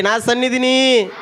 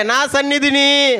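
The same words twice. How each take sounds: First: Slow, high, loud shout; loud call. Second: Very high, slow shout; louder call. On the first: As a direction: shout it for them to repeat. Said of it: "గట్టిగా అరవండి". (గట్టిగా అరుపు) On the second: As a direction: raise it even louder. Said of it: "అరే, గట్టిగా అరవమంటుంటే". (ఇంకా గట్టిగా అరుపు) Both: Shown as a demonstration.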